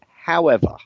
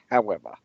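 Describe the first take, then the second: First: However thrown out high and loud; stress on However. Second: Said in the usual way. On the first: Real, not acted. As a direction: punch out "However" louder and higher. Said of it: "marked restart of a topic". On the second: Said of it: "repeat back at normal level".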